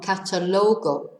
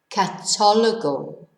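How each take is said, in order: First: The stress falls away from the second syllable. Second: The stress falls on the second syllable. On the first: The speaker calls it wrong. "not catalogo" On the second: The speaker calls it right.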